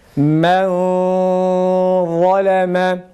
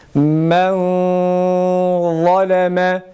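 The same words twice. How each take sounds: First: The n sound is hidden, only nasalized. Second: The n sound is hidden, only nasalized.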